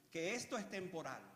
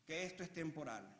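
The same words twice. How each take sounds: The two takes are said the same way.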